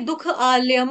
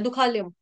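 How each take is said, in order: First: The final m is full, with a vowel. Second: The final m is clipped without a vowel. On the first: The m is a full syllable, linked to the next word. "ये पूरा म है" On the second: The m joins the following word as a bare consonant. "हलंत हो गया दुखालयम, ये हलंत वाला म है"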